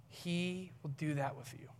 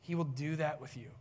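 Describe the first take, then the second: First: He held long, then the rest softer; stress on He. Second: Said in the usual way. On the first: Real, not acted. Preacher assuring the congregation, He stretched and emphasised. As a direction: draw out He and set it apart. Repeat leans on He.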